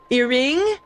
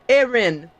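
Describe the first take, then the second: First: The name starts with an 'ear' sound. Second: The name starts with an 'air' sound. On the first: The speaker calls it wrong. "I also had people who called me Earring" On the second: The speaker calls it right. "It's so easy"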